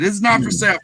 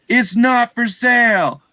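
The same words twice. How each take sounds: First: Said in the usual way. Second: High, loud flat refusal; yelled refusal. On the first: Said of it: "He wasn't rude". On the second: Retold or imitated. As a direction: bark it out firm and final. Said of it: "And he just yelled at me".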